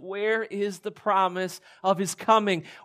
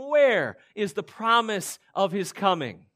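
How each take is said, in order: First: It is asked in a sincere, longing tone. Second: It is asked in a mocking, scoffing tone.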